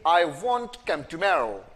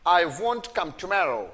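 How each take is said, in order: No difference in how they are said.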